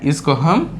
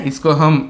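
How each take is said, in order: The two takes are said the same way.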